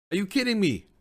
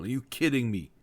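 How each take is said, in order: First: Higher pitched outraged 'kidding'; real disbelief, pitch jumping up on 'kidding'; exasperated disbelief. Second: Said in the usual way. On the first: Real, not acted. Player outraged his keeper was benched for the final, exasperated disbelief. Annoyed at manager benching goalkeeper.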